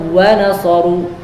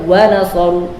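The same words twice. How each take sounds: No difference in how they are said.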